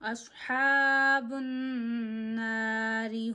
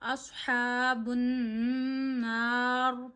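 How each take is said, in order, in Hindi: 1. इसमें बारीक र आता है, उसके बाद इ स्वर होता है। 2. यह बिना किसी स्वर के मोटी र पर खत्म होता है। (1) "अगर नहीं रुक रहे तो नारी पढ़ेंगे, रॉ को बारीक करेंगे" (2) "अगर रुकना है तो नार पढ़ेंगे, रॉ मोटी होगी"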